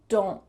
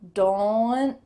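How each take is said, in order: First: The final T is stopped with no added vowel. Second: A small schwa sound is added at the end. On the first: The speaker calls it right. "the second rule, which uses just the stop T" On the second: The speaker calls it wrong. "If we used that first rule, it would sound like don't, or something that's not very natural"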